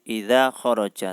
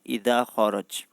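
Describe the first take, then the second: First: The last word ends with a final vowel sound. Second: The last word ends on a consonant, vowel dropped. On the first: This is the usual form of the word. "Harusnya kan ... khoroja" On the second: This form suits the rhyme of the verse. "dimatikan semua"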